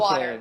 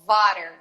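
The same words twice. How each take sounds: First: The word starts with a w sound. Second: The word starts with a v sound. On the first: "em vez de water" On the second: "que é vo- water"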